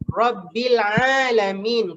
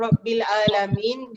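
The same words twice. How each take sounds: First: 'Alamin' starts with a strong, pressed throat sound. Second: 'Alamin' starts with a plain glottal stop. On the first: The speaker calls it right. "Kena bila sampai ain tu tekankan" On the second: The speaker calls it wrong.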